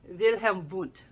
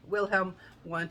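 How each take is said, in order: First: The name is said with German sounds. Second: The name is said with English sounds. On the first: The speaker calls it right. "to the best of my ability" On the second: The speaker calls it wrong. "you don't say"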